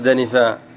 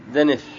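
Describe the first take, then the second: First: The word ends on a long vowel. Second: The word ends on a bare consonant. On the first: "ما قال دنفا" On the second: "بحذف الألف بالسكون"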